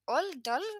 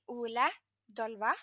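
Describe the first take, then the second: First: The name is said the French way, shortened. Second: The name is said the Norwegian way. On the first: This is how others in France called him. "he just heard like, Oldol" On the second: This is how the owner says his name. "he's called Ola Dolva"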